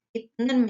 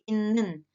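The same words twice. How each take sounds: First: Said in the usual way. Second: "innen" with the t turned into n; nasal assimilation, "innen" for itnen; nasalised pronunciation. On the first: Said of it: "menjadi innen". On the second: Shown as a demonstration.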